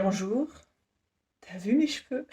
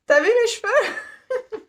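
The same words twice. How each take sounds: First: Soft, offhand boast about her hair; mock job-interview brag; cheeky quip. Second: Higher, slow, laughing question; hammed-up hair boast to Disney staff; giggly mock brag. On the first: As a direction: toss it out casually, half joking. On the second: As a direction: squeal it through a giggle, showing off. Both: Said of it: "je vais dire".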